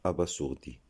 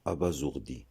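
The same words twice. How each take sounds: First: "abasourdi" misread a-ba-sour-di; wrong hissed-s version of "abasourdi"; s as hard s. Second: "abasourdi" said a-ba-zour-di. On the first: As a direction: say "abasourdi" with an unvoiced s, no z. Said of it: "et non". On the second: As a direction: say "abasourdi" with a voiced z for the s. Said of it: "Ce mot se prononce". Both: Shown as a demonstration.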